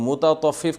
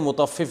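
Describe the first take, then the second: First: The 't' syllable is pronounced separately. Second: The 't' syllable is merged into the 'f'. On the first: "मुततफ़िफ़ को पढ़ते हैं" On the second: "मुतफ़िफ़ भी पढ़ते हैं"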